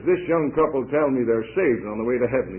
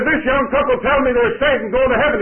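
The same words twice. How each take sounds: First: Said in the usual way. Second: High, loud announcement to a crowd; announcing loudly. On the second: Retold or imitated. Old preacher announcing to the crowded coach, loud and high. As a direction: call it out to the whole coach.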